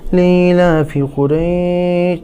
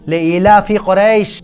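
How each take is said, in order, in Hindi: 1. इसे हल्के से पढ़ा जाता है, बिना वज़न या ज़ोर के। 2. इसे ज़ोर से पढ़ा जाता है, वज़न और भाव के साथ। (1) "तो ऐसे नहीं कि" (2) "ज़ोर से और ज़ोर लगा के महसूस करके पढ़ना है"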